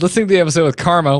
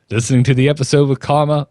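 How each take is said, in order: First: It is read in his normal voice. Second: It is read in an old Southern drawl.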